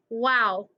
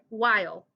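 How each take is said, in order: First: It is said in a Southern Texas accent. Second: It is said in a standard American accent. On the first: "In Texas, we do weird things with our vowels" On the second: "while is how you pronounce it"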